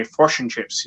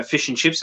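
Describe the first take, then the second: First: Fish said as "frosh", rounded vowel; New Zealand pronunciation. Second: Said in the usual way. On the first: Retold or imitated. Australian host mocking how New Zealanders say fish, light Kiwi vowel. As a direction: mimic the Kiwi "frosh and chips", lightly teasing. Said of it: "they say". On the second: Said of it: "the way that they say".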